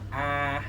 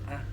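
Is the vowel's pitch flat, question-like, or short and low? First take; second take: flat; short low. First: The vowel is said on a flat pitch. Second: The vowel is short with a low, dropping pitch. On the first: "yung A yung walang ano" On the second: "yung tuldok lang A"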